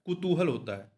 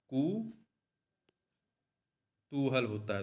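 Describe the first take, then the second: First: Said in the usual way. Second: कुतूहल said very slowly and softer, each syllable stretched; slow, soft dictation. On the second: Shown as a demonstration. Teacher dictates the correct form कुतूहल to students, slow and soft. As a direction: draw out कुतूहल gently so students can write it.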